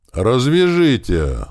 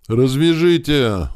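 First: High, very slow begging whine; a tied man begging again; desperate plea. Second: High, drawn-out whimpering plea; a captive whimpering to be untied; whining plea. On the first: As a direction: stretch it out, pleading in pain. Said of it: "снова взмолился Михайлов". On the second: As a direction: whine it out, begging and slow. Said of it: "заскулил Михайлов". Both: Acted.

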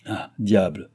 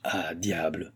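First: Mild exclamation at usual volume; understated, doubting exclamation; shaken disbelief. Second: Quiet, subdued exclamation; hushed oath as doubt sets in; shaken disbelief. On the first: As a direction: let out a mild oath of surprise. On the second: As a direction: say it softly, as if to yourself. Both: A narrator's reading. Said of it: "ébranlé dans ses principes d'incrédulité".

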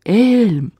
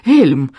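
First: High, drawn-out cry without much volume; a cry carried through a blizzard; distant cry. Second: Short, mild cry of alarm. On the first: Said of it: "словно сквозь вьюгу донёсся до меня крик Лайлы". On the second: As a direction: call the name out sharply. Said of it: "закричала Лайла". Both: A narrator's reading.

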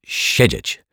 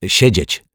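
First: "Siedzieć" repeated slower in the foreign guest's voice; Turk's careful, drawn-out "Siedzieć"; Turk correcting himself. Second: "Siedzieć" said properly with a dź in the middle; detective's reflex correction, "Siedzieć" in native Polish; correcting pronunciation. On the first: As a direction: echo the correction "Siedzieć" in character. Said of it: "poprawił się Turek". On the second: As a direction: correct the guest with a crisp model "Siedzieć". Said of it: "poprawił odruchowo swojego gościa". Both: A narrator's reading.

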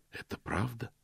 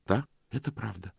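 First: Soft, breathy near-whisper; hushed, moved admission. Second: Steady, decided, falling on "это"; a quiet but firm "это правда". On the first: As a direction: barely voice "правда". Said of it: "почти прошептал он". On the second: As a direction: answer with certainty. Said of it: "И она ответила твёрдо". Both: A narrator's reading.

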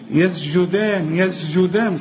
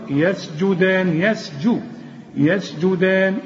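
First: يسجدان with a blurred sin; wrong reading. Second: يسجدان slow, sin and jim clear; careful reading. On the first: Teacher mimicking a wrong يسجدان. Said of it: "خطأ". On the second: Teacher slowly chanting the correct يسجدان. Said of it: "حققهم في النطق". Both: Shown as a demonstration.

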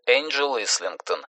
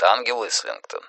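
First: «Энджел Ислингтон» said the English way, soft Энджел; «Энджел» with a soft English j sound, quiet; English pronunciation. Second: «Ангел Ислингтон» with a Russian hard г; «Ангел» read as the Russian word for angel; Russian pronunciation. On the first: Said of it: "которую так и называют". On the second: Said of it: "Отсюда и возникает". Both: Shown as a demonstration.

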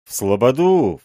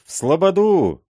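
First: Raised rowdy call; a first cry toward the settlement; drunken shout. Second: Much higher, louder yell; mob's echo, pitched way up; louder drunken shout. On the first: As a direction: shout it to the mob. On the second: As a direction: top the first cry, rowdier. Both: A narrator's reading. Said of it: "кричали пьяные удальцы".

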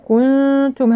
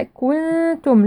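First: Wrong كنتم, hum held through pursed lips; lips kept rounded. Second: Slow كنتم with lips relaxing for the hummed ن; lips released for ikhfa. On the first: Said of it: "هكذا والشفتين مضمومتين". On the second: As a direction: release the rounding during the long ن of كنتم. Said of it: "لا نترك الشفتين مضمومتين في الإخفاء". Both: Shown as a demonstration.

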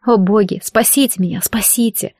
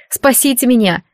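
First: Desperate prayer. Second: A mild frightened plea, called out; frightened cry for help. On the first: Dragged to the cell, she prays to the gods, softening to a hush. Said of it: "одна молитва". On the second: Captive girl begs the rider to save her, mild frightened cry. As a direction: cry out for rescue, but only lightly. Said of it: "заверещала девушка". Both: A narrator's reading.

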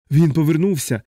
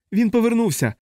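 First: A touch of feverish dread, barely raised; delirious horror. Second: High panicked scream; hysterical shriek. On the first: Feverish patient echoes Dunbar with mild horror. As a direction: mumble it back in fever-struck fear. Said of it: "з жахом підхопив у маячні". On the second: Dunbar shrieks again at the soldier in white. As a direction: shriek it again in terror, much higher. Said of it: "знову заверещав Данбар". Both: A narrator's reading.

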